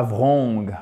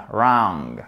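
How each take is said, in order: First: WRONG begun with a V sound, "vrong"; wrongly sounded W. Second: WRONG begun on R, long open vowel; silent W. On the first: Teacher showing francophones the mistake, W sounded. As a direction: pronounce the W in WRONG, French style. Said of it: "Le W ne se prononce pas ici". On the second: Teacher modelling the correct word, W left silent. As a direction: drop the W and stretch the vowel in WRONG. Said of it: "une voyelle longue entre le A et le O". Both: Shown as a demonstration.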